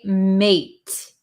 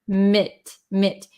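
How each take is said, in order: First: The syllable has a full long vowel. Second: The syllable has a short reduced vowel. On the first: The speaker calls it wrong. "We don't say mate" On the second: The speaker calls it right.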